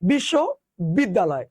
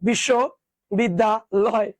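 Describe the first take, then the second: First: It is said quickly in two chunks. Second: It is said a bit faster in three chunks. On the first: "যদি আরো দ্রুত উচ্চারণ করো" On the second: "তুমি যদি একটু দ্রুত পড়ো"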